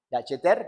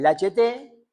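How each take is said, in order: First: "Lacheter" ending in an audible R; French "Lacheter" in a Spanish accent, closing on R; final R sounded. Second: "Lacheté" drawn out, ending on an open vowel without R; French "Lacheté" in a Spanish accent, no R at the end; accented final E. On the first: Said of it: "sin la R". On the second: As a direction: say "Lacheté" slowly, stressing the last E. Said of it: "con acento en la E, sin la R". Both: Shown as a demonstration.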